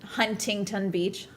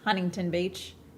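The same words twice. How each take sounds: First: The T's in Huntington are clearly pronounced. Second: The T's in Huntington are run together. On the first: "instead of Huntington Huntington Beach" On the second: "where you like run together the T's"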